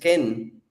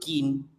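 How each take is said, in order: First: The name's vowel sounds like 'eh'. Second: The name's vowel sounds like 'ee'. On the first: The speaker calls it right. "es Moise Ken" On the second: The speaker calls it wrong. "Y le siguen siendo Kin"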